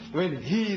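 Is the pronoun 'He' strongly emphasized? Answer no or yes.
no. The pronoun He carries no special emphasis.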